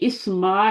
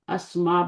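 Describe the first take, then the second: First: The word begins with an 'i' vowel. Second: The word begins with an 'a' vowel. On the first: The speaker calls it wrong. "आपने इस्मा नहीं बोलना" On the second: The speaker calls it right. "अस्मा बोलना है"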